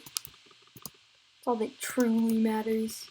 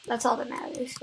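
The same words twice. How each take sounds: First: Slow, drawn-out "truly matters" with mock gravity; slow dramatic repeat. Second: Said in the usual way. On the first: Shown as a demonstration. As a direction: stretch it out like a solemn proclamation.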